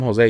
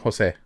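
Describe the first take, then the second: First: The name is said with an American accent. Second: The name is said with a Spanish accent. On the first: The speaker calls it wrong. "you don't call him Jose" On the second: The speaker calls it right. "you call him Jose"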